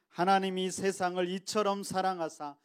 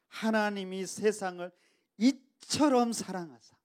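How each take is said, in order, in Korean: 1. 모든 단어를 특별한 강조 없이 고르게 읽습니다. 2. 이처럼은 강하게 힘을 주어 말합니다. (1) "단순하게 그냥 이렇게 읽으면 안 된다" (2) "이처럼의 큰 힘을 주고 강력한 힘을 주어서"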